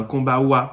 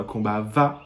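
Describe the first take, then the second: First: "kombawa" with a clear w sound, kom-ba-wa; wrong way. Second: "kombawa" said kom-ba-va, with a v for the w; Creole way. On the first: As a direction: say "kombawa" with a w as the mistake. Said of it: "on dit pas un kombawa". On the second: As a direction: say "kombawa" with a v sound. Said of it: "mais un kombawa". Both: Shown as a demonstration.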